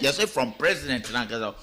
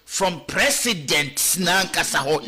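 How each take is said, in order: First: Said in the usual way. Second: Slow, deliberate, each word weighed; slow emphatic repeat; slow emphasis. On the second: Shown as a demonstration. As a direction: spell it out slowly to drive the point home. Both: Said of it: "ye emphasize".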